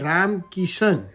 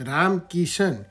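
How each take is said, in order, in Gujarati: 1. બીજા નામનો અંત sh અને 'an' અવાજથી થાય છે. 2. બીજા નામનો અંત sh અને 'an' અવાજથી થાય છે.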